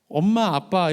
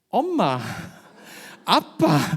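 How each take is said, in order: First: It is said in a standard Seoul-like accent. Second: It is said with a Busan accent.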